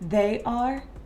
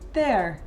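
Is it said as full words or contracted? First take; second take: full; contracted. First: The two words are said separately in full. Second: The two words merge into one short syllable.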